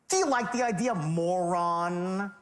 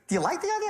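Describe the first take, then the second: First: It sounds contemptuous and talking down. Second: It sounds casual and mildly curious.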